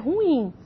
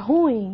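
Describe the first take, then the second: First: The stress falls on the final i, two syllables. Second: The stress falls on the u, as one syllable. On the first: The speaker calls it right. "o correto é ruim" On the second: The speaker calls it wrong. "não é"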